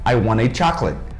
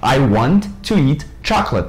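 First: Want to is blended into one quick word. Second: Want to is said as two separate, choppy words. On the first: The speaker calls it right. "Eles falam" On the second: The speaker calls it wrong. "você falar assim, fica robotizado e fica muito mais picado"

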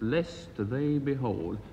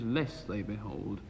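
First: The final t of the first word is sounded. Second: The final t of the first word is dropped. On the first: The speaker calls it right. "It's "lest they behold."" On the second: The speaker calls it wrong. "anybody listening at the moment would think it was "less they behold.""

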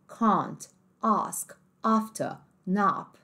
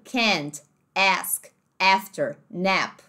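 First: It is said in a British accent. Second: It is said in an American accent. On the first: "No inglês mais britânico" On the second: "no inglês americano"

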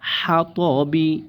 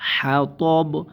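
First: The word ends with a short i vowel. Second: The word ends on a bare b consonant. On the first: "বা জের বি" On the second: "এখানে আয়াত শেষ, বার জেরটা সাকিন হয়ে যাবে"

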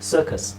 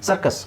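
First: The first vowel is long and drawn out. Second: The first vowel is short and clipped. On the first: "ಇಂಗ್ಲೀಷಲ್ಲಿ" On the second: "ಕನ್ನಡದಲ್ಲಿ"

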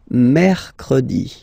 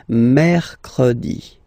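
Both takes have the same delivery.

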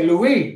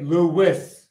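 First: It is said the French way. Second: It is said the American way. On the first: The speaker calls it right. "That's how you say all three" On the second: The speaker calls it wrong. "But the Americans say"

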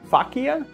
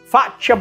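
First: The middle consonant sounds like in maraschino. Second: The middle consonant differs from the maraschino sound. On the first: The speaker calls it wrong. "like when you say maraschino" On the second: The speaker calls it right. "but it's actually Faccia Brutto"

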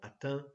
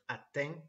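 First: It is said with a standard Parisian accent. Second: It is said with a southern French accent. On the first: "if you want me to use a standard Parisian accent" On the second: "not another southern French accent"

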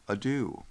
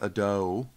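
First: The word is said with its standard pronunciation. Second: The word is said with a nonstandard pronunciation. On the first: The speaker calls it right. "That word is ado" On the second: The speaker calls it wrong. "he said ado, or he mispronounces it on purpose"

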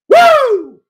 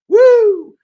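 First: The shout is louder. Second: The shout is fairly quiet.

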